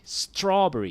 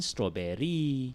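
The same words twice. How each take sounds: First: The first syllable is pushed; the final vowel is short. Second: The final vowel is drawn out long. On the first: "in English, American English and British English, you say strawberry... You push the straw there" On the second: "Malay pronunciation strawberry. We like to elongate the last vowel"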